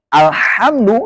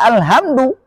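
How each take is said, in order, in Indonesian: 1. Huruf h itu bunyi kasar dari tenggorokan. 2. Huruf h itu bunyi lembut, biasa, dan berdesah.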